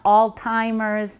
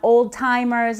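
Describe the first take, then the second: First: The first syllable sounds like 'all'. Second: The first syllable sounds like 'old'. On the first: "not all timers" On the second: "not old timers"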